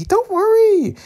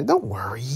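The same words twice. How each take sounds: First: Playful falsetto reassurance. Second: Said in the usual way. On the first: Acted. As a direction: comfort them in a silly falsetto. Same words repeated in falsetto.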